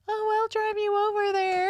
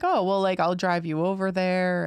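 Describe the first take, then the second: First: Very high-pitched imitation of a man's girlish voice; exaggerated high, girly impression; mock girly voice. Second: Said in the usual way. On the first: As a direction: squeak it up high, mocking a date's voice. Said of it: "he just had the girliest voice". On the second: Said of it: "it was more like".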